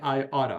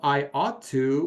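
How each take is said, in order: First: The words are blended into a reduced form. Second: Each word is said fully and separately. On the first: "we say I oughta" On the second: "Instead of I ought to"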